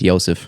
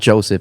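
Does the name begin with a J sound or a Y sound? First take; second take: Y sound; J sound. First: The name begins with a Y sound. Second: The name begins with a J sound. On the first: The speaker calls it right. "it's Yosef" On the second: The speaker calls it wrong. "not Joseph"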